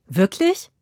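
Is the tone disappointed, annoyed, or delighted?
delighted. It sounds surprised and delighted.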